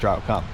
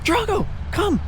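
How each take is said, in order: First: It is said in a firm, commanding tone. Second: It is said in a warm, friendly tone. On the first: The dog is being given a serious order. "mom voice" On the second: The dog is being invited kindly. "hey buddy, come on"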